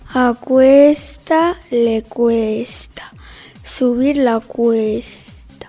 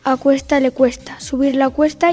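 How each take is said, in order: First: It is spoken at a slow pace. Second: It is spoken at a normal pace. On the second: "A velocidad normal"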